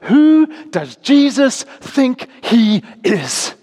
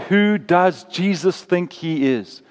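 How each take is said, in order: First: It is said with indignant, scornful emphasis. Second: It is asked as a plain, sincere question. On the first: It implies Jesus is being presumptuous. "or you might say it like this" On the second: It asks what Jesus believes about himself. "you might say that as a question"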